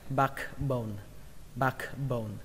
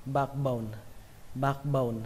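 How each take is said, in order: First: "backbone" as "bahk-bone", two parts with the k sounded; "backbone" carefully split, first vowel a plain open A. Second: "backbone" as a joined "bahkbone", k barely touched; "backbone" linked up, open A and unreleased k; gliding over K. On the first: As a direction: say "backbone" with a clear A, back and bone apart. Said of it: "các bạn cứ đọc là âm A đi". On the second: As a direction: say "backbone" as one word with open A, skimming the K. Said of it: "Hoặc là lướt qua". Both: Shown as a demonstration.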